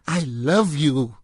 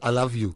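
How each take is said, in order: First: It is said in an intense, dramatic way. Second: It is said in a plain, casual way. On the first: "It's like in the movies" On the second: "it's not"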